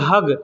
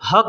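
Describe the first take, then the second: First: The word ends with a g sound. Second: The word ends with a k-like sound. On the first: This is how people in Qatar and Kuwait say it. "तो उसी को लोग बोलते हैं हग" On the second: This is how the word is written. "बड़ा हा और बड़ा काफ से लिखा जाएगा, तो हक हक होता है"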